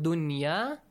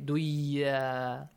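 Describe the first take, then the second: First: The n sound is clearly pronounced before y. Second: The n sound is dropped and merged into y. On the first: The speaker calls it right. "except for the word dunya. It's an exceptional case" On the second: The speaker calls it wrong. "You cannot say duya"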